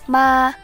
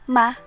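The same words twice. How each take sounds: First: The pitch stays high and level. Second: It is quick and light, with no pitch. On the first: "The first tone is high and level" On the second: "pronounced quickly and lightly without pitch"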